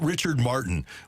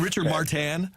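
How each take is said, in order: First: The name is said with an English pronunciation. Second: The name is said with a French pronunciation. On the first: This is how fans commonly said the name. The speaker calls it wrong. "how did we pronounce it" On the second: This is how the name should have been said. The speaker calls it right. "shouldn't it have been"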